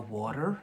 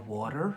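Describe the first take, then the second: First: It is said in an American accent. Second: The same.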